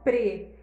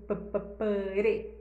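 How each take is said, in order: First: The syllable is said quickly, sounds run together. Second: The syllable is said slowly, sounds drawn apart. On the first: "Só que rapidão" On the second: "Se fosse em câmera lenta, ia ser"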